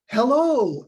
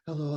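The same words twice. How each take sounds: First: The greeting sounds lively and enthusiastic. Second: The greeting sounds flat and unenthusiastic. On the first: The caller makes listeners want to hear more. The speaker calls it right. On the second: The caller makes listeners want to hang up. The speaker calls it wrong.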